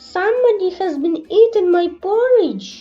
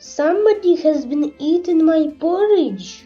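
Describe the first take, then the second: First: The voice is small, little and wee. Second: The voice is of middling size and pitch. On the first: "in his little small wee voice" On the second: "in her middle voice"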